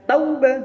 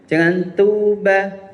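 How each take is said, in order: First: The word is said softly and gently. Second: The word is said harshly, without softness. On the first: The speaker calls it right. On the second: The speaker calls it wrong.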